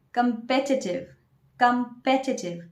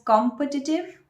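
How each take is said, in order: First: Competitive stressed on the second syllable, kəm-PEH-ti-tiv; correct pronunciation. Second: Competitive stressed first, KOM-pə-ti-tiv; wrong pronunciation. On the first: Teacher giving the correct form, competitive as kəm-PEH-ti-tiv. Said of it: "You should say". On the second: Teacher showing the common mistake, competitive as KOM-pə-ti-tiv. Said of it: "that's a wrong pronunciation". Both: Shown as a demonstration.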